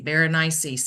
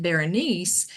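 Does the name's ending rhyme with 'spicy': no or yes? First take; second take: yes; no. First: The name's ending rhymes with spicy. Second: The name's ending does not rhyme with spicy. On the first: "just rhyme it with something spicy" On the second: "he said Berenice"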